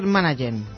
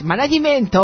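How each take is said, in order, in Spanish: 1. La palabra se dice con acento inglés normal. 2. A la palabra se le han añadido vocales extra, al estilo japonés.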